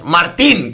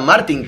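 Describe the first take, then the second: First: The stress is on the last syllable, tín. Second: The stress is on the first syllable, Mar. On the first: The speaker calls it right. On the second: The speaker calls it wrong.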